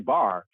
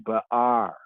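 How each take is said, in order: First: The word is run together and clipped. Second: The word is said with each part separated. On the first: The speaker calls it wrong. "you can say bar, but that's not distinctly" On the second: The speaker calls it right. "Saying it distinctly"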